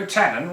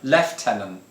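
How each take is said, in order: First: It is said the American way, French-like. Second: It is said the British way, not French-like. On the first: The speaker calls it wrong. "you Americans, you like to pronounce it all French" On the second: The speaker calls it right. "lieutenant is the correct pronunciation"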